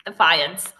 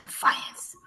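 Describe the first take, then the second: First: Defiance said clearly, stress on fi; corrected Defiance. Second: Breathy whispered correction. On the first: Shown as a demonstration. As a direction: land the word Defiance cleanly. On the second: Real, not acted. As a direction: whisper the word defiance.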